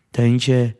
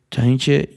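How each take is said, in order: Both takes have the same delivery.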